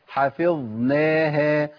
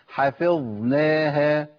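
Both takes have the same delivery.

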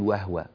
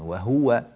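First: The u vowel after h is weak or dropped. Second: The u vowel after h is clearly pronounced. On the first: The speaker calls it wrong. "ولا تقول وهو" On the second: The speaker calls it right. "بين ضمة الهاء جيدا"

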